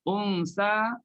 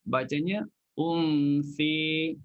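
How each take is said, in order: First: The final vowel is a plain open a. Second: The final vowel is tilted toward e.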